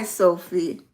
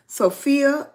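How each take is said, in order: First: Sophie said as SO-fee, two syllables; first reading. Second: Sophia said higher and louder, ending on a clear -ya; name corrected. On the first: Host greeting viewer Sophia, first short reading Sophie. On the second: Host correcting herself to Sophia, higher and louder. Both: Shown as a demonstration. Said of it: "assume I'm saying Sophia".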